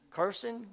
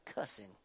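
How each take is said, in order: First: Cursing with a clear r sound, kur-sing; northern pronunciation. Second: Cussing with no r, kuh-sing; southern pronunciation. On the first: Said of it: "up north is how they say cursing". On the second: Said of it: "and down south". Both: Shown as a demonstration.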